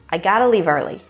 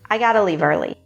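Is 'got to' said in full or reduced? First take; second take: reduced; reduced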